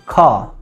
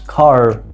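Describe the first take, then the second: First: It is said with no r sound. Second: It is said with an r sound.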